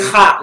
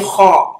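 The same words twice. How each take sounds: First: The vowel is a pure, open A sound. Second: The vowel is rounded, close to an O. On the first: The speaker calls it wrong. "we don't say ha" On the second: The speaker calls it right. "we pronounce them with an O sound"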